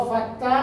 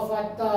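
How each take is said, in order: Both takes have the same delivery.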